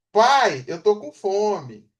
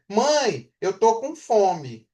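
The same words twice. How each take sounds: First: Put-on a child calling dad, slow and drawn out; child asking dad. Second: Put-on a child's plea, slow and drawn out; child asking mom. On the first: Teacher voicing a child telling dad she's hungry, slowly. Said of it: "vamos botar o pai na onda". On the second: Teacher voicing a child asking mom for food, slow and drawn out. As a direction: say it slowly, like a hungry child. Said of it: "Ela fala assim". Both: Shown as a demonstration.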